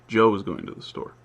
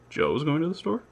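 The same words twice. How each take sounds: First: It has the pitch contour of a statement. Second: It has the pitch contour of a question. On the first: It tells a fact. "take this the statement" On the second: It asks whether it is true. "I can turn it into a question just by saying"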